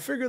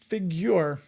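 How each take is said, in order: First: It is said without a 'yu' sound. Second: It is said with a 'yu' sound. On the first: "Did he say figure?" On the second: "I thought there was a U inside of figure"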